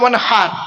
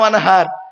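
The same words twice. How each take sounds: First: The h is a tight breathy sound from the throat. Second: The h is a plain, soft h sound. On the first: It means offer sacrifice. The speaker calls it right. "এই গলার ভেতর থেকে হে এটা উচ্চারণ করবে, হাই হুতি" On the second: It means dig a canal. The speaker calls it wrong. "আর আমরা উচ্চারণ করি কি?"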